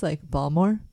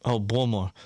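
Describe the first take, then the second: First: Balmore, with the middle "ti" dropped; Baltimore said as two syllables. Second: Baltimore with all three syllables; full three-syllable Baltimore. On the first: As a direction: say "Balmore", swallowing the middle letters. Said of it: "a big way we would say it". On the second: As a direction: say "Baltimore" carefully, every syllable. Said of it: "trying to get all three syllables". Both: Shown as a demonstration.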